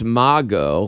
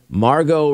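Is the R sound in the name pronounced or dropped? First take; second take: dropped; pronounced. First: The name is said without an R sound. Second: The name is said with an R sound. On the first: The speaker calls it right. "in Australia it's Mago because they kind of lose the R" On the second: The speaker calls it wrong. "is not correct"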